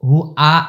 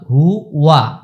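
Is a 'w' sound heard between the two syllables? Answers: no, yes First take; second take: no; yes. First: The second syllable is a bare vowel, no w. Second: A clear w sound joins the two syllables. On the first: The speaker calls it wrong. "হু আ আ যেন না আসে" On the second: The speaker calls it right. "ওয়াও জবর ওয়া"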